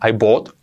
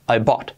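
First: The vowel in bought sounds like an O. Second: The vowel in bought is neither A nor O. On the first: The speaker calls it wrong. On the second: The speaker calls it right.

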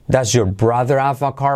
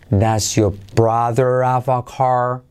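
First: The sentence is spoken at normal speed. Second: The sentence is spoken slowly.

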